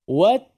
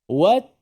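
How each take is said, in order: Both takes have the same delivery.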